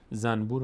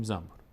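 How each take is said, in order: First: "زنبور" said zanbur, with a clear N before B; written N sound. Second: "زنبور" said zambur, with M before B; N turned M. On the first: Teacher giving the spelled form, "زنبور" as zan-bur. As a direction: keep the N distinct in "زنبور". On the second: Teacher showing the spoken form, "زنبور" as zam-bur. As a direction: close the lips early, turning N to M in "زنبور". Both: Shown as a demonstration.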